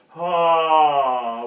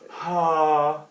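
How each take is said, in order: First: It is firmer, with the vocal folds closing. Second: It is breathy, with lots of air.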